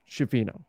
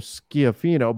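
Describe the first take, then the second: First: Anglicized vowels, not the Italian vowel reading. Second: Italian vowels, with stress on the last i. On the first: This is how people are heard saying it. "I've heard Schifino as the way that it's pronounced" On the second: This is how the name reads in Italian. "the I sounding like the E's in feed, ... and the stronger sound is on the last I"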